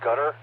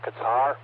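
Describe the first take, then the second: First: The word begins with a G sound. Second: The word begins with a K sound. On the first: "like it sounds like a G" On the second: "commonly we say a Qatar or Qatar"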